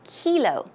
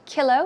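First: The first vowel is a long E sound. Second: The first vowel is not a long E sound. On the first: The speaker calls it right. "we say kilo. It's a long E sound" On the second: The speaker calls it wrong. "we don't say kilo"

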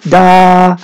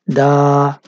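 First: The syllable is said on a high pitch. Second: The syllable is said on a low pitch. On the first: "If you pronounce this as a high tone, it would be da" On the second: "and it would be da"

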